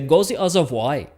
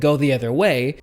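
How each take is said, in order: First: It is said in a German accent. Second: It is said in an American accent. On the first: "if we had a German sentence" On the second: "if we had an American sentence"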